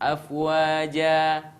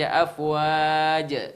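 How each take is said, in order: First: The word ends with a lengthened a vowel. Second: The word ends without a lengthened a vowel. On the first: The speaker calls it right. "Harus afwaja" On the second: The speaker calls it wrong. "Nggak bisa dibaca afwaja. Ah, salah"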